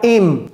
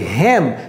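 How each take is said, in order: First: The word begins directly with the vowel. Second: The word begins with an audible h sound. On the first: The speaker calls it wrong. "C'est pas him" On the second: The speaker calls it right. "Ça, c'est him"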